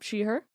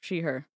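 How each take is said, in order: First: The voice rises at the end like a question. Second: The voice falls at the end like a statement.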